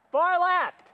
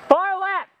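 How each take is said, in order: First: Said in the usual way. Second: Loud battle callout; cover me shout. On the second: Real, not acted. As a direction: shout the warning. Warning teammates in combat.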